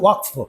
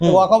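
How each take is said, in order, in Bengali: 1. এটি মূল আরবি নিয়মে উচ্চারিত হয়। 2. এটি বাংলায় রূপান্তরিত নিয়মে উচ্চারিত হয়। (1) "আমি কথাটা হচ্ছে ওয়াকফ" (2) "ওয়াকফ হয়ে গেছে"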